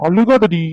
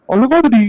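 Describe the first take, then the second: First: Said in the usual way. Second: அழுகாதடி pushed higher and louder, pleading; exasperated plea. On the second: Acted. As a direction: raise the voice on அழுகாதடி, begging her to stop. Begs crying girlfriend stop crying.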